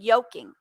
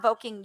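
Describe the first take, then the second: First: The word begins with a 'y' sound. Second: The word begins with a 'v' sound. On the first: The speaker calls it right. "It's a it's a Y" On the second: The speaker calls it wrong. "I'm not voking"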